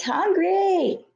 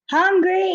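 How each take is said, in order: First: High shrieked wail; shrieking. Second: High piercing shriek. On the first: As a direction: shriek it, then let it fall. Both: A narrator's reading. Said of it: "you shrieked".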